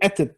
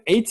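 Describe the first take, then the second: First: The vowel is short and unstressed. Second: The vowel is long and stressed. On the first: The word is joined to the next word. "마케프가 쓰면 at 단모음이 됩니다" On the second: The word stands alone with its own accent. "액센트가 있으면 eight가 되고"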